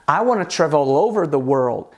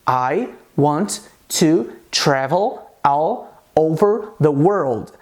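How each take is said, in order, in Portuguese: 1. As palavras se juntam rapidamente na fala conectada. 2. As palavras são ditas devagar e separadamente. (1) "é assim que as pessoas falam" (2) "de maneira mais pausada, de maneira mais devagar"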